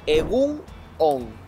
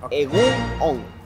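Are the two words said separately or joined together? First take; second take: separately; separately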